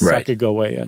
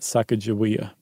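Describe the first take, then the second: First: The third syllable starts with a hard G. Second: The third syllable starts with a J sound. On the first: The speaker calls it right. "they think that it was a hard G" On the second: The speaker calls it wrong.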